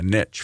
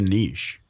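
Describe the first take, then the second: First: It is said with an American pronunciation. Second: It is said with a non-American pronunciation.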